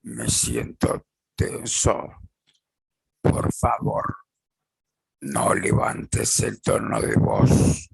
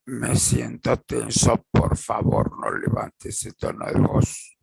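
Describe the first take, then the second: First: Voz más grave, lenta y serena; tono bajo y calmo. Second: Said in the usual way. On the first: Shown as a demonstration. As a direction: decilo tranquilo, sin subir la voz. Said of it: "con tono de voz más bajo y calmo". (ejemplo asertivo dicho con voz grave y calma) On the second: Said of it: "tono de voz más bajo y calmo".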